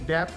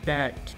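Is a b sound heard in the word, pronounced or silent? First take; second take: pronounced; silent. First: A b sound is pronounced in the word. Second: The b sound is left out entirely. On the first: The speaker calls it wrong. "इसको डेप्थ नहीं" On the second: The speaker calls it right. "बी silent रहता है"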